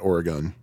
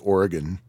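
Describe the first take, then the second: First: The final syllable has a full, unreduced vowel. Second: The final syllable has a reduced schwa vowel. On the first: This is how outsiders say it. The speaker calls it wrong. "not Oregon" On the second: This is how locals say it. The speaker calls it right. "native Oregonians say Oregon ... you got to schwa that final syllable"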